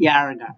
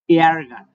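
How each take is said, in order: First: Said in the usual way. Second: এয়ারগান repeated louder, with the এয়া vowel clearly stressed. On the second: Shown as a demonstration. Teacher repeating এয়ারগান for students, louder and clearer. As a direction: say এয়ারগান again, leaning on the এয়া sound. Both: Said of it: "এয়া উচ্চারণ করব".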